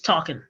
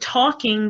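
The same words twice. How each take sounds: First: The ending is said as 'in', g dropped. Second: The ending is said with a full 'ing' sound.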